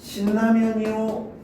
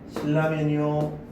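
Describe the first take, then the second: First: The middle consonants are both pronounced as n. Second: The middle consonants are both pronounced as l. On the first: "두 번째 경우 같은 경우에는 리을의 비음화를 일으켜서 발음을 하게 된 것이죠" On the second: "첫 번째 경우 같은 경우에는 이제 유음화를 시켜서 발음을 한 거고요"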